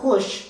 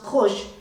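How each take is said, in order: First: The vowel is a U sound. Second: The vowel is an O sound. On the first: "the letter U" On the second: "it is pronounced khush in the Doaba dialect"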